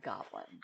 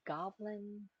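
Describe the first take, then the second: First: Goblin whispered low, testing the word; a low whispered goblin, just trying it. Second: Goblin said higher, testing how it sounds; trying the word out. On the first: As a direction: breathe goblin under your breath. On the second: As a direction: say goblin up high like you're trying it on. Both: Shown as a demonstration. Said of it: "trying to think, goblin".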